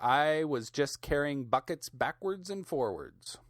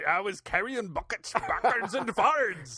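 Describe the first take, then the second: First: It is said in the speaker's plain accent. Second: It is said in a put-on, nearly Scottish accent.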